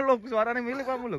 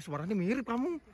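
First: Laughing. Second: Said in the usual way. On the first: Real, not acted. Same remark repeated with a laugh.

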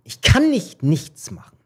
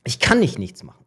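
First: Slower, higher, leaning on "kann"; slow, firm "Ich kann nicht nichts machen" with weight on "kann"; firm resolve. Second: Said in the usual way. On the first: Retold or imitated. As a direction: land "kann" hard as a decision. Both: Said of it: "ich so".

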